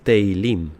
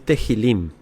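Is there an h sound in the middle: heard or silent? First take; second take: silent; heard. First: No h sound is heard in the middle. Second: An h sound is heard in the middle. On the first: The speaker calls it right. "es teilim" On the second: The speaker calls it wrong. "No es tehilim"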